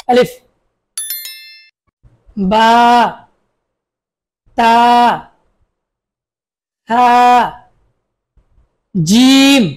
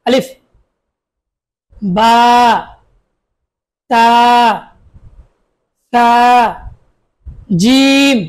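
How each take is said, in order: Both takes have the same delivery.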